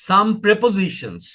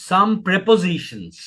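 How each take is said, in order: The two takes are said the same way.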